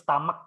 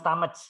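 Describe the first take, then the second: First: The middle consonant is a k sound. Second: The middle consonant is not a k sound. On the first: The speaker calls it right. "tapi stomach dibaca K ini. C H ini dibaca K" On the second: The speaker calls it wrong. "Bukan stomach"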